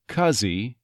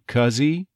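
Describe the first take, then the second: First: The H is dropped and the words are linked. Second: The same.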